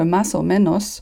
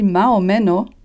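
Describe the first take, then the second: First: The first word ends with an S sound. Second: The first word ends without an S sound. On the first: "plutôt que « mas o menos »" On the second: "s'il avait dit « ma o menos »"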